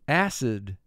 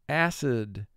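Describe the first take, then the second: No difference in how they are said.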